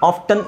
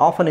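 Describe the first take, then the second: First: "often" as "off-tun"; sounded T. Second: "often" as "off-un"; silent T. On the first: Teacher slipping into the less preferred form, sounded T. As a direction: say "often" with an audible T. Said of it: "sorry, often is better". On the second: Teacher correcting to the preferred form, silent T. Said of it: "ಟಿ extra ಹೇಳೋ ಅವಶ್ಯಕತೆ ಇಲ್ವಲ್ಲ". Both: Shown as a demonstration.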